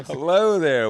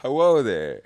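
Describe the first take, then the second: First: Hello there said flatly as greeting; plain Hello there, not the podcast way; wrong hello there. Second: Hello there, drawn out in a big singsong; loud, playful Hello there; podcast greeting. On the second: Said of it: "Just do hello there". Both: Shown as a demonstration.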